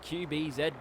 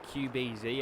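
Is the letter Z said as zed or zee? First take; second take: zed; zee. First: The final letter is pronounced zed. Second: The final letter is pronounced zee. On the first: "We say it properly over here" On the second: "if you're one of the Americans, that's how you say Z"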